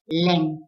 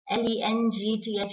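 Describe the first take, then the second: First: Length as LENG-th; correct pronunciation. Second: Length as LENTH, plain n; wrong pronunciation. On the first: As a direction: clear ng inside length. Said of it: "but length". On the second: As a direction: drop the ng sound from length. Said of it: "is not length". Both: Shown as a demonstration.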